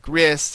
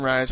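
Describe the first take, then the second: First: The vowel is a short 'i' sound. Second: The vowel is a long 'eye' sound. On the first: The speaker calls it right. "It's supposed to be like Riss" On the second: The speaker calls it wrong. "you're pronouncing Rise wrong"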